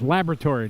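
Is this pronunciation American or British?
American. It is said in an American way. The speaker calls it right. "It's laboratory"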